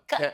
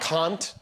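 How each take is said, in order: First: The vowel sounds like in 'can'. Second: The vowel falls between 'can' and 'con'. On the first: It is how others corrected the speaker. "they said, no, no, no, it's can" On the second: It is a compromise between the two. "split the difference"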